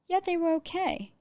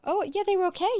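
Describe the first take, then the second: First: It sounds hesitant and doubtful, hinting at a problem. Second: It sounds relaxed and positive, with no concern.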